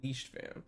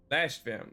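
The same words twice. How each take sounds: First: "leashed" with a long ee; misreading. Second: Said in the usual way. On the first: Real, not acted. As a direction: say "leashed" to rhyme with "beached", by mistake.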